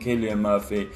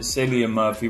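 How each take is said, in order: First: The first name begins with a K sound. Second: The first name begins with an S sound. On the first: The speaker calls it right. "rather than" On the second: The speaker calls it wrong. "I've been pronouncing it"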